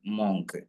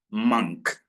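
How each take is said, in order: First: "മോങ്ക്" with a round o sound; wrong way. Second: "മങ്ക്" with a short a sound; correct way. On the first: Teacher shows students the wrong "മോങ്ക്" reading. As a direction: demo the wrong "മോങ്ക്", o as in more. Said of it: "മോങ്ക് എന്ന് വായിക്കരുത്". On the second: Teacher gives students the right "മങ്ക്" reading. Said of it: "മങ്ക് എന്ന് വായിക്കണം". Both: Shown as a demonstration.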